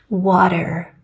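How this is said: The T sounds soft, like a D. "in American English, they're using the vocal cords to make a D sound"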